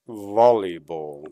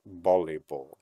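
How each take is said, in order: First: It is said with an English pronunciation. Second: It is said with a Tagalog-style pronunciation. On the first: The speaker calls it right. "But in English, it's volleyball" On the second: The speaker calls it wrong. "not volleyball"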